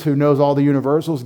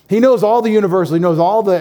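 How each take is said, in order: First: Said in the usual way. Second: Higher, louder, faster, hammering the phrase home; emphatic repeat. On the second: Shown as a demonstration. Pastor driving the point home to the congregation, loud and fast. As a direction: declare it like a proclamation.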